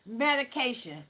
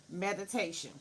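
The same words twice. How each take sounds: First: Medication, said with a hard k instead of t; Medication, mispronounced as medication; wrong word medication. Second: Meditation. said properly with a t sound; meditation. corrected, t instead of k; corrected pronunciation. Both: Shown as a demonstration.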